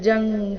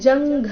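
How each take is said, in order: First: The g sound is unaspirated, without a breath. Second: The g sound is aspirated, with a breath. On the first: The speaker calls it right. "ಗ ಇದೆ ಅಲ್ಪ ಪ್ರಾಣ" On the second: The speaker calls it wrong. "ಇಲ್ಲಿ ಜಂಘ ಅಂತ ಇಲ್ಲ"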